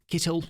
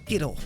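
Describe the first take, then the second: First: It is said in a British accent. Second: It is said in the speaker's plain accent.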